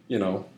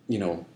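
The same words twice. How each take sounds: Both takes have the same delivery.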